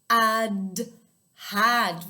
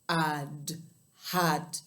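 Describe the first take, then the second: First: It is said in a bright, happy voice. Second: It is said in a very deep, low voice. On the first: "in a really happy voice" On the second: "in a really low voice"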